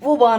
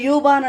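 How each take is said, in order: First: The word begins with a plain 'oo' sound. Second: The word begins with a 'yoo' sound. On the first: This is how the locals say it. "కానీ వాళ్ళు ఊబాన్ ఊబాన్ అంటారండి" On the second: This is how people back home say it. "మనం యూబాన్ అంటామా"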